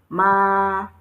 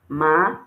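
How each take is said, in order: First: The pitch stays level and flat. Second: The pitch rises from low to high. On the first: "The first one has a flat tone on the A" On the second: "The second one has the rising tone on the A"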